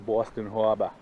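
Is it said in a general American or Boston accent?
Boston. It is said in a put-on Boston accent.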